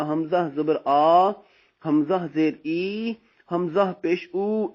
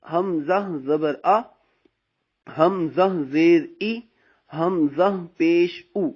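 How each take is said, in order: First: "आ", "ई", "ऊ" stretched long and rising; wrong drawn-out vowels. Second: "आ", "ई", "उ" kept short without stretching; correct short vowels. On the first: Teacher shows students the wrong stretched vowels. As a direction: drag the final vowels like the wrong way. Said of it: "हमने कभी ऐसे नहीं पढ़ना". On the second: Teacher shows students the correct unstretched reading. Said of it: "ना". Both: Shown as a demonstration.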